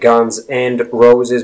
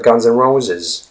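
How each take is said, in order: First: The word 'and' is said in full. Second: The word 'and' is reduced to 'n'. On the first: The speaker calls it wrong. "you don't say" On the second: The speaker calls it right.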